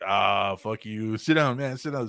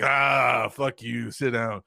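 First: Playful brush-off. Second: Gruff shout. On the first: Retelling [name] telling the kid to sit down, lightly voiced. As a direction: tease it like a friendly dismissal. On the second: Redoing [name]'s line to the hosts, with a loud shouted curse. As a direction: bark the "fuck" loud, then settle. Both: Retold or imitated. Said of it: "he said it just like that".

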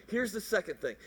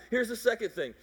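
No difference in how they are said.

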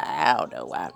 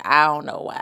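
First: Deep, quiet repeat. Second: Said in the usual way. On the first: Shown as a demonstration. Repeating herself to viewers, much lower and quieter. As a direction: drop way low and soft for the echo.

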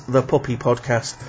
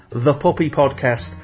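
The two takes are said the same way.

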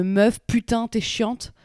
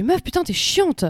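First: Very slow, every word laid out. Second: Higher, exasperated, a bit drawn out; exasperated outburst. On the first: Shown as a demonstration. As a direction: spell out putain, t'es chiante slowly for a foreigner. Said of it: "je la refais en mode plus lentement". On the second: Retold or imitated. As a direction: let the annoyance burst out at the colleague. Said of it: "genre, ça me saoule".

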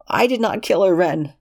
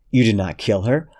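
First: Pitched-up, insistent protest; high denial. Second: Said in the usual way. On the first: Acted. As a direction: deny it in a high strained voice. Lexington denying the killing.

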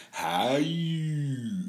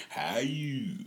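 First: Imitating Maya. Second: Whispered imitation. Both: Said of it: "she be sitting over there to my son".

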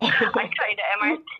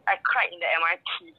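First: Laughing through the words. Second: Said in the usual way. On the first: Real, not acted. Laughing while telling her friend she cried on the train. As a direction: laugh as you admit crying.

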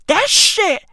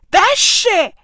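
The two takes are said the same way.

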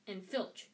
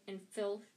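No difference in how they are said.

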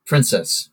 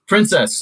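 First: Said in the usual way. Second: High call across a room; a sharp, high calling voice. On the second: A narrator's reading. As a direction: call her name from a distance. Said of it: "a voice called".

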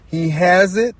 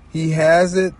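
No difference in how they are said.

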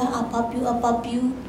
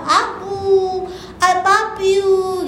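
First: Said in the usual way. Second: Put-on drawn-out, cooing little-child greeting; lightly mimicked loving grandchild; affectionate grandchild. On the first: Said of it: "Ternyata dia bilang semua sama". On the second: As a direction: stretch it out like a grandchild running for a hug. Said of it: "cucu-cucu saya yang ada di gereja suka peluk saya".

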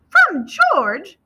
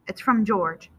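First: High, loud, eager echo; astonished question. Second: Said in the usual way. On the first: A narrator's reading. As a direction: pitch leaping up in amazement. Mom echoes the news, astonished.

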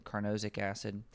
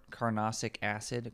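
First: "carnosic" with a long "no" and a buzzed z, kar-NOH-zik; second pronunciation try. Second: "carnosic" with a short "no" like "nah" and a hissed s, kar-NAH-sik; first pronunciation try. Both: Shown as a demonstration. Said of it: "I'm not sure the pronunciation".

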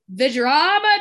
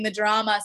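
First: Campy theatrical gasp; dramatic. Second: Said in the usual way. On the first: Pretend. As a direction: ham up the drama. Campy exclamation about the drama.

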